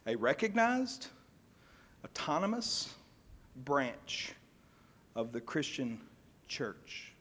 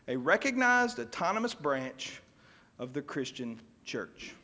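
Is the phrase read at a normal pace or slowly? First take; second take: slowly; normal. First: The phrase is read slowly and deliberately. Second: The phrase is read at a normal pace.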